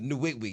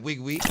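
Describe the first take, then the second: First: The name starts with an n sound. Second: The name starts with a w sound. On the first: The speaker calls it right. "you know your name is Nwigwe" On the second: The speaker calls it wrong. "Your name is not Wigwe"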